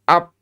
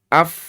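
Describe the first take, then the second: First: The sound is stopped abruptly like a p. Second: The f sound flows softly with continuous air. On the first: The speaker calls it wrong. "Bukan ap" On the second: The speaker calls it right. "Fa-nya rokhawah"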